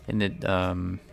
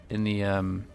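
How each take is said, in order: Both takes have the same delivery.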